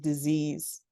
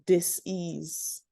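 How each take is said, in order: First: It is said fast, as one run-together word. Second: It is said slowly, split into two parts. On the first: "people say it really fast and it becomes disease" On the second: "the lack of ease"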